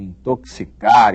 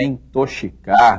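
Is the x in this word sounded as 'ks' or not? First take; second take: ks; not ks. First: The x is sounded as 'ks'. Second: The x is not sounded as 'ks'. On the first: The speaker calls it right. "É assim que se diz isso" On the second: The speaker calls it wrong. "não é intoxicar"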